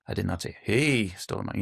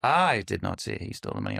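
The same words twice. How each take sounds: First: "he" lifted and lingered on, the rest even; stress on HE. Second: "I" hit first and hardest, the rest falling away; stress on I. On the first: Showing a coach a stress shift, leaning on "he". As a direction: land on "he" as if it was someone else who stole it. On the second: Showing a coach a stress shift, leaning on "I". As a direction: punch "I" as if someone else said it. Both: Shown as a demonstration. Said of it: "put the emphasis on the different words".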